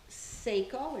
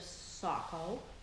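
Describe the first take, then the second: First: It is pronounced the way it is written. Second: It is pronounced in the usual local way. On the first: This is how the mother said it. The speaker calls it wrong. "might have said Seiko; she pronounced it the way they looked on paper" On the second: This is how others usually say it. The speaker calls it right. "instead of Sacco"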